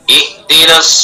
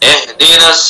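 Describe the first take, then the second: First: The first vowel sounds like a pure 'i'. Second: The first vowel sounds like an open 'e'. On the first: The speaker calls it right. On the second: The speaker calls it wrong.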